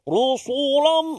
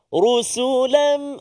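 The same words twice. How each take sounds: First: The s sound is heavy like the r. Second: Only the r is heavy; the s is light. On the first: The speaker calls it wrong. "bunyi tebal semua" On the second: The speaker calls it right. "Ra saja yang tebal"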